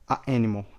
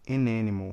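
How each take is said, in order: First: A break cuts between the article and noun. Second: The article links smoothly into the noun. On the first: The speaker calls it wrong. "Olha esse corte" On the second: The speaker calls it right. "Bem natural"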